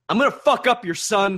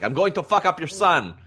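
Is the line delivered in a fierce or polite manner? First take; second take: fierce; polite. First: The line is said fiercely and aggressively. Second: The line is said calmly and politely. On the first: "You said that with some ferocity to me" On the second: "he said it a little more polite"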